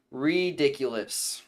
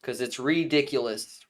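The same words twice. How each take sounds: First: "ridiculous" said slowly with a clear R; careful pronunciation. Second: "ridiculous" with a crisp R at normal pace; careful pronunciation. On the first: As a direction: sound out "ridiculous" syllable by syllable, R clear. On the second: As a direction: say "ridiculous" fully, stressing the R. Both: Shown as a demonstration. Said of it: "Make sure I pronounce if I say something with an R".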